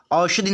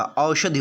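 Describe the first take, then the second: First: "औषधि" with a simple opening vowel, "ashadhi"; wrong pronunciation. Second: "औषधि" with a full au glide, "aushadhi"; correct pronunciation. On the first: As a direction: say "औषधि" with no v-glide after the first vowel. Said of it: "औषधि नहीं होता". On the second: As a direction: say औषधि opening on a clear "au". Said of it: "औषधि होता". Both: Shown as a demonstration.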